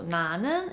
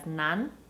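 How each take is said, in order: First: The ending is a full syllable, neun. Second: The ending shrinks to a single n sound.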